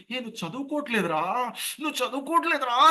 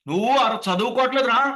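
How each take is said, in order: First: High, strangled mock scolding; choked-back yell. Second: Loud, high demo yell; full open-voiced scolding. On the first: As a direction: scold with the throat squeezed, afraid neighbours will hear. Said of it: "అని గొంతు నొక్కేస్తాం". (గొంతు నొక్కేసి తిట్టడం) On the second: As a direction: let the scolding out fully, throat unheld. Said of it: "బయటకు పూర్తిగా ఇవ్వాలి". (గొంతు విప్పి గట్టిగా తిట్టడం) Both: Shown as a demonstration.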